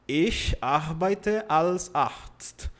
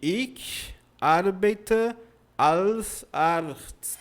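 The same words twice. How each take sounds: First: It has no noticeable foreign accent. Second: It has a mild foreign accent. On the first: A learner after six months says it. The speaker calls it right. "Pronto, já pronunciou" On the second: A learner after two months says it. The speaker calls it wrong. "Já está melhorando, mas não é perfeito"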